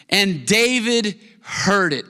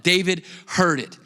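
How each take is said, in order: First: Slow, weighty "And David heard it"; slow emphatic read. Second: Said in the usual way. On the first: Shown as a demonstration. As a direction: savour "David" and let it fall. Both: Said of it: "I love that".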